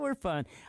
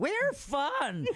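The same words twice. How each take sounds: First: It is said flatly, without much energy. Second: It is said with more enthusiasm and energy.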